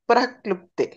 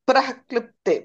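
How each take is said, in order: The two takes are said the same way.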